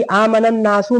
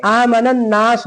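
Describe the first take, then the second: First: "आमनन नासु" stopped with the final "सु" vowel sounded; wrong stop. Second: "आमनन नास" ending on a plain s; correct stop. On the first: Teacher showing a mistaken pause, wrong stop. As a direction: keep the u at the end of "नासु". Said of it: "ये गलत है". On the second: Teacher showing how to pause, correct stop. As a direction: drop the final vowel, stop on "नास". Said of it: "आमनन नास हो जाएगा". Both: Shown as a demonstration.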